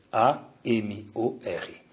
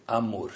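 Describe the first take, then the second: First: A M O R, each letter said apart, slow and soft; spelled out letter by letter. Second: Said in the usual way. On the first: Shown as a demonstration. Rabbi spelling the word for his students, slow letters. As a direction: spell out A M O R slowly, one letter at a time. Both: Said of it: "também quer dizer o quê em português?".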